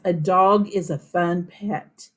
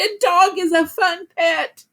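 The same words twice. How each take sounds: First: It is said plainly, as a calm statement. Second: It is said excitedly, with lively energy.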